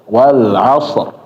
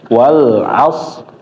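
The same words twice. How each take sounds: No difference in how they are said.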